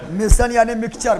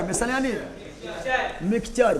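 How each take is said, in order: First: Said in the usual way. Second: The same definition said again much softer; soft repeat. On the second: Shown as a demonstration. Teacher repeating the definition to the class, much softer. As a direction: drop the voice for the repeat. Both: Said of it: "teacher repeats definition twice".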